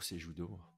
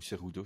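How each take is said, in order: First: The middle consonant is a soft 'zh' sound. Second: The middle consonant is a throaty 'r' sound. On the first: "si on prononce J" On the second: "ou R sans J"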